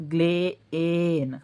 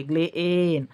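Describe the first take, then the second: First: ग्लेएन drawn out very slowly so the hidden ए is heard; slow teaching split of ग्लेएन; stretched syllables. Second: Said in the usual way. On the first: Shown as a demonstration. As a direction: stretch ग्लेएन, lingering on ग्ले then ए. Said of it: "ग्लेन म्हणते वेळेस याच्यामध्ये ए एडक्याचा लपलेला आहे". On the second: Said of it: "ग्लेन म्हणते वेळेस".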